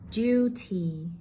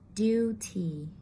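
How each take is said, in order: First: A y glide follows the d. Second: No y glide follows the d. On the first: "I will read from British English" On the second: "to American English"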